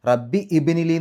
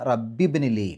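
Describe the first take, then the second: First: A separate i vowel is said before bni. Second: Rabbi runs straight into the b sound. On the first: The speaker calls it wrong. "റബ്ബി ഇബിനിലി എന്ന് പറയില്ല" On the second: The speaker calls it right. "ഹംസത്ത് വസ്ൽ നഷ്ടപ്പെടും"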